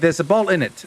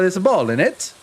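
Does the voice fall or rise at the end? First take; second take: fall; rise. First: The voice stays level or falls at the end. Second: The voice rises at the end. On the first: It is a plain statement. "it depends on your tone" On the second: It is a question. "you go up at the end of the sentence"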